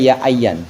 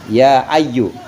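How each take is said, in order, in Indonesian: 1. Kata ini berakhir dengan bunyi -an. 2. Kata ini berakhir dengan bunyi vokal u pendek. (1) "nggak boleh juga ya ayyan" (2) "harus dibaca gitu"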